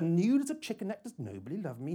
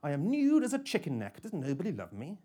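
First: A touch of a mother crying out, high on nude; lightly voiced mother, warm cry; widowed mother's voice. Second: A hint of a smooth machine voice, high on nude; lightly voiced robot woman, pitched up; robotic female voice. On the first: Bedroom assistant sounding like her widowed mother, mild warm cry. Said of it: "cries out warmly". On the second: Kitchen assistant joining the chorus, lightly voiced robotic woman. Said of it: "robotic female voice".

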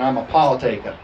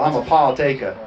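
First: Playful New Jersey "Paul taker"; New Jersey accent. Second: Playful Southern-accented "Paul taker"; Southern drawl. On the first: Pastor playing on "partakers" for the church, New Jersey accent. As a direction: drop the r's like New Jersey. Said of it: "say it in a New Jersey accent". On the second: Pastor playing on "partakers" for the church, Southern drawl. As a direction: drop the r's with a Southern drawl. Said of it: "Or a Southern accent, a Southern drawl". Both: Shown as a demonstration.

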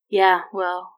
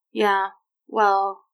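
First: Mildly resigned, trailing into the second word; sighing. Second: Hesitant, with a gap between the words; stumbling. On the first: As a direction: give in with a touch of a sigh. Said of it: "she said with a sigh". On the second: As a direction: fumble for an explanation, mildly awkward. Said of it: "she stumbled over any kind of explanation". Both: A narrator's reading.

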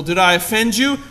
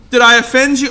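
First: Did I offend you? asked lightly, mock-sweet; mock concern. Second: Did I offend you? repeated louder and higher, stressing I; sarcastic repeat. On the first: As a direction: ask "Did I offend you?" gently, as a sarcastic aside. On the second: Pretend. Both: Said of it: "that's not what it says".

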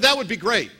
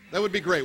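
First: THAT said louder, falling hard; keen, emphatic repeat of the offer; eager first take. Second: Said in the usual way. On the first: Retold or imitated. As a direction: punch the first word with delight. Pastor retells contact's eager reply.

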